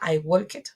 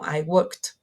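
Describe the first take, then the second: First: The ending is said as a separate 'ed' syllable. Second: The ending is said as a short T sound. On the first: The speaker calls it wrong. "ed sound doesn't doesn't occur like a I walked" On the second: The speaker calls it right. "similar to a T pronunciation"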